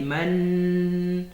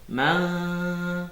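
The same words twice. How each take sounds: First: The n is fully sounded with the tongue touching. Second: The n is hidden, without a clear n sound. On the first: The speaker calls it wrong. "J'ai pas dit man" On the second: The speaker calls it right. "Il faut laisser la langue là où elle est"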